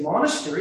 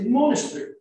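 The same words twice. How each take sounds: First: Said in the usual way. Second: MONASTERY in an Australian accent, as "monas-tree". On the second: Shown as a demonstration. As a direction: say "monastery" the Australian way, swallowing the E before R. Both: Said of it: "also the way they would speak".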